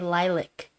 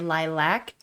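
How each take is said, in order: First: The word is said in a British-style way. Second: The word is said in the usual American way. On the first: The speaker picked it up from British films. "I say lilac ... I think I got it from hearing British people in movies" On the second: This is how most Americans say it. "most Americans say lilac"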